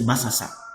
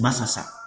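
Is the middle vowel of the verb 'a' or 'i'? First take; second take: a; a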